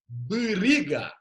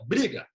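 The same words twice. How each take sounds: First: The word is said slowly, sounds pulled apart. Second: The word is said at normal conversational speed. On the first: "Se a gente falar devagar" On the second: "A gente falar, fica briga"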